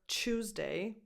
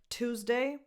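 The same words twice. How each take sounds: First: The start of the word sounds British. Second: The start of the word sounds non-British.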